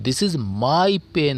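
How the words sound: The word 'my' is said with strong stress. The speaker calls it right. "वो माय पे जो है ना वो अधिक ज़ोर देना चाहिए"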